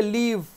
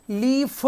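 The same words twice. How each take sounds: First: लीफ as one syllable, long EE closing on F; silent ending. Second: लीफ with an added vowel, lee-fu; wrong voiced ending. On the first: Teacher correcting the reading, लीफ with silent ending. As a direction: stretch लीफ, no vowel after F. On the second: Teacher showing a misreading, लीफ as lee-fu. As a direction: make लीफ two syllables, sounding the final vowel. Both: Shown as a demonstration. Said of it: "लीफ नहीं पढ़ेंगे".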